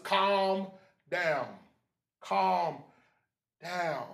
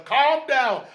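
First: Each word alone, with pauses; measured calming. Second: High, loud preacher's cry; loud exhortation. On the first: Preacher settling the congregation after exhorting them, measured and calming. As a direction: let each word settle before the next. Same words, slowed to model calm. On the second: Preacher urging brother and sister, loud exhortation. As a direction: belt it out to the congregation. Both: Shown as a demonstration.

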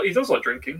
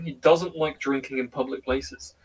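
First: "does" lifted in correction; stress on DOES. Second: Slow, emphatic "doesn't"; slow down and lean on "doesn't"; stress on DOESN'T. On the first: Correcting a friend about someone's drinking, stress on "does". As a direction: lean on "does" to contradict. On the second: Clarifying what the friend dislikes, slowly stressing "doesn't". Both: Real, not acted.

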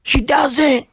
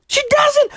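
First: Said in the usual way. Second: Mock indignant falsetto; high-pitched protest; squeaky high denial. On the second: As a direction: jump way up into a squeak. Insisting she knew nothing.

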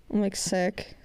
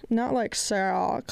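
First: Said in the usual way. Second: "sick" stretched slowly as slang praise; drawn-out slang SICK. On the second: Shown as a demonstration. Telling listeners which sick is not meant, drawn-out "sick". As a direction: draw out "sick" like calling something awesome.

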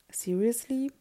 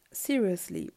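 First: Rising tune on seriously; seriously, lifted into a questioning end. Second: Falling tune on seriously; seriously, stated with a falling close; seriously as statement. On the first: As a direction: echo seriously back with the pitch climbing. Echoes the word as question. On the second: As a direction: say seriously with the pitch dropping at the end. Same word answered as question. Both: A narrator's reading.

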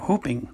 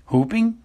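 First: Said in the usual way. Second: Whooping thrown up high in disbelief; incredulous echo. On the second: A narrator's reading. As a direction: echo whooping as a startled, rising question. Harry echoes the word in disbelief.

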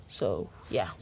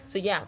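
First: Much lower put-on voice, so yeah; mock deep voice. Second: Said in the usual way. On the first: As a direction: drop into a deep goofy voice for a joke. Deep joke voice after rambling.

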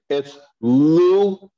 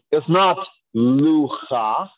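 First: Luach with the a before a throaty ch; right ach ending. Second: Lucha with the ch before the a, slow; wrong cha ending. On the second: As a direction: show the wrong lucha slowly. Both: Shown as a demonstration. Teacher contrasting wrong and right ending.

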